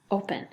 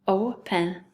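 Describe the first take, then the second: First: Said in the usual way. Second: "Open" slowly as two beats, o, pen; split into syllables. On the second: Shown as a demonstration. Teacher showing second graders the syllables, "Open" in two slow beats. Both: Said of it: "first syllable O".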